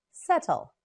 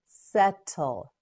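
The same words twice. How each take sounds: First: Said in the usual way. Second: "Settle" slowly as set, tul; syllable by syllable. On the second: Shown as a demonstration. Teacher models word by syllables.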